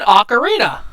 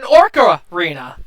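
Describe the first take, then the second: First: "ocarina" with no R before the C, higher; correct pronunciation. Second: "orcarina" with an R before the C, louder; demonstrated mispronunciation. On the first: Teaching friend the instrument's name, "ocarina" without the R. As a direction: say "ocarina" with a clean "oc" opening. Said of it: "not an orcarina". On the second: Showing friend the mistake, "orcarina" with intrusive R. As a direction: lean on the "orc" in "orcarina", as in orca. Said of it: "Unless it's shaped like a". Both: Shown as a demonstration.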